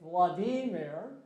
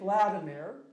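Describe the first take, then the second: First: The name is said with a Russian pronunciation. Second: The name is said with an English pronunciation. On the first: "the Russians say Vladimir" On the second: "we say Vladimir"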